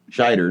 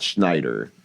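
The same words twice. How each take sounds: First: "Scheider" said slowly, no N after the Sh; careful corrective "Scheider", SHY-der; pronounced without N. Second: "Schneider" with an N right after the Sh; the mistaken name "Schneider", N clearly sounded; pronounced with N. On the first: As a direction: stress the missing N: Sh straight into the vowel in "Scheider". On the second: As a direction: say "Schneider" as SHNY-der. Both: Shown as a demonstration. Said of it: "Minus the N".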